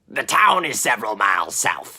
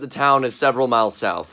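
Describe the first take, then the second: First: It is said in a put-on character voice. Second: It is said in the speaker's ordinary narrating voice.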